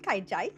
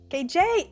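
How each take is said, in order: First: Both syllables use the vowel sound of 'eye'. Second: Both syllables use the vowel sound of 'ay'. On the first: The speaker calls it wrong. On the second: The speaker calls it right.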